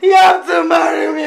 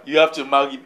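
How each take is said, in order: First: Loud, fast, insistent demand; shouted demand. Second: Lightly imitating the woman's demand; mocking her words. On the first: Acted. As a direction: insist at the top of your voice. Woman demands marriage in quarrel. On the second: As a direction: lower mock echo of her demand. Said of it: "Listen, listen to her".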